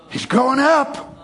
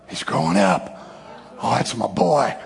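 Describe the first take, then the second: First: Higher, slow, delighted announcement; proud father exclaiming. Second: Low, hushed and moved; tender fatherly pride. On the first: God watching his boy forgive, proud exclamation. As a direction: crow slowly over how he has grown. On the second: God watching his boy forgive, tender pride. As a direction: murmur it low, full of pride. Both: Acted.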